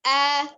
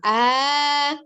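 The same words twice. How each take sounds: First: The vowel is short, steady and firmly voiced. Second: The vowel is drawn out with a swinging wobble. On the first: The speaker calls it right. "tapi ah" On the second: The speaker calls it wrong. "tidak diayunkan ya. Jadi eh, bukan ah"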